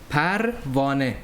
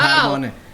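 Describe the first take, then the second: First: It is said slowly, broken into separate syllables. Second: It is said smoothly at a natural speed. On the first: The speaker calls it wrong. "I just dissected it so you can say it" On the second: The speaker calls it right. "but don't say it the way I said it"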